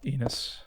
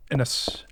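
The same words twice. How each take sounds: First: Enos with a long E, EE-nos. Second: Ennis with a short E, EN-is. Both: Shown as a demonstration. S1 testing how to say the firm name.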